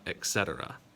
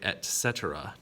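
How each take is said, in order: First: The first word ends with a K sound. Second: The first word ends with a T sound. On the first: The speaker calls it wrong. "There's no X in there" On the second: The speaker calls it right. "It is a T sound"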